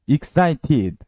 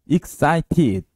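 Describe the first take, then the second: The two takes are said the same way.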